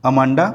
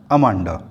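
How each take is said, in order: First: Amanda called with a rising end; calling rise. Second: Amanda dropped much lower, falling at the end; low falling close. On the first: Mother calls her daughter Amanda with a rising call. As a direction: call out Amanda, lifting the last syllable. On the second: Mother repeats Amanda to her daughter, dropping low and falling. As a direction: let Amanda sink low and final. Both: Acted.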